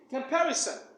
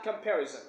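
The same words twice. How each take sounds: First: The consonant before -on is a hissing s sound. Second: The consonant before -on is a buzzing z sound. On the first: The speaker calls it right. "It should be comparison. ... should produce a sin sound instead of the za sound" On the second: The speaker calls it wrong. "but it is not comparison"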